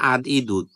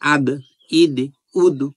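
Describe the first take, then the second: First: Each final consonant stops plainly without any bounce. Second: Each final consonant is released with a bouncing echo. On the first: "আর স্বাভাবিকভাবে কি হতো?" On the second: "ধাক্কা দিয়ে পড়ার কারণে এইভাবে পড়তেছি"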